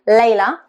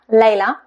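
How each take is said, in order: Both takes have the same delivery.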